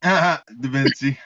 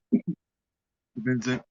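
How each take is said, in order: First: Slow, drawn-out laughing Da Vinci. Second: Said in the usual way. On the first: Real, not acted. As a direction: stretch Da Vinci through a laugh. Laughing at a silly name.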